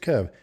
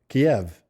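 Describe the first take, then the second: First: The name is said as one short syllable. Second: The name is said as two syllables. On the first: The speaker calls it wrong. "It's not pronounced Kev. All the newscasters were doing that" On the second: The speaker calls it right. "No, it's Kiev"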